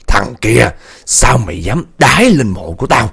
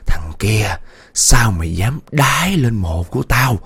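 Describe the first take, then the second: First: Louder menacing ghost call; loud ghost cry. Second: Slow eerie ghost voice; slow ghost growl. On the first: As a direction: call out at him from the cart. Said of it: "kêu". (giọng ma kêu to đe dọa) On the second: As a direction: drag it out like a voice from the grave. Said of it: "cái giọng nó gằn". (giọng ma gằn chậm rãi rùng rợn) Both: A narrator's reading.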